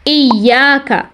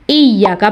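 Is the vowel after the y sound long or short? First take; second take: long; short. First: The vowel after the y is long. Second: The vowel after the y is short. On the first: The speaker calls it right. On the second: The speaker calls it wrong.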